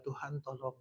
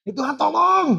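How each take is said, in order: First: Mild, subdued prayer for help; restrained call. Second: Loud, high-pitched cry for help; hammed-up desperate shout; desperate call. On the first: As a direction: call on God politely and quietly. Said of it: "Yang istilahnya kalau manggil Tuhannya bukan". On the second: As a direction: yell to God as if in urgent danger. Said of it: "kalau manggil Tuhannya bukan". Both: Shown as a demonstration.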